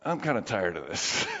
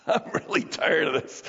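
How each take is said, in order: First: Low, quiet, tired confession; weary admission. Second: Rueful laugh, then a tired confession; weary admission with laugh. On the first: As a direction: drop the voice right down, worn out. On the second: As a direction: laugh at your own exhaustion. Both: Real, not acted.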